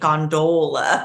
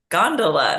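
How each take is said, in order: First: The final 'ola' is pronounced fully and clearly. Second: The final 'ola' is softened and reduced. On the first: The speaker calls it wrong. "pronounced it gondola with the ol, uh, the full ola" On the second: The speaker calls it right. "no, it's gondola"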